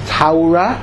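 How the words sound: Torah is said in a Yekke Hebrew accent. "which is the Yeki pronunciation"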